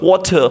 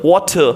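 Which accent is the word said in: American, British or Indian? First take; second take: British; British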